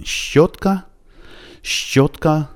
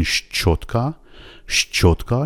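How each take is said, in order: First: "شوتکا" on a long tense sh with a tiny ch behind it; doubled soft sh. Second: "شچوتکا" with a full, hard ch after sh; overly thick shch. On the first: Teacher modelling the recommended way for learners, doubled sh. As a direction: stress and hold the opening sh of "شوتکا", high pitch. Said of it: "انگار که یه چه کوچولویی دارین دنبالش". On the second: Teacher mimicking learners' overdone version, hard sh-ch. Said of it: "خیلی غلیظ تلفظش کنید". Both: Shown as a demonstration.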